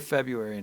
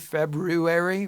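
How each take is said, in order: First: The first r sound is dropped. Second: The first r sound is clearly pronounced. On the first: "So I just say February now" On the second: "phonetically, you're supposed it's spelled with F E B R U A R Y"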